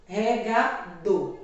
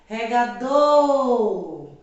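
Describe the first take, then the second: First: "regador" slowly in parts, weight on final "dor"; "regador" measured, final "dor" stressed. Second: "regador" called out loud, final "dor" stretched long; long, loud "dooor" ending "regador"; calling out. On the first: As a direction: say "regador" slowly, leaning on the last syllable "dor". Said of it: "falo com mais intensidade a sílaba do". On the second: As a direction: call "regador" as if summoning someone, holding "dor". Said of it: "falar a palavra como se estivesse chamando". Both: Shown as a demonstration.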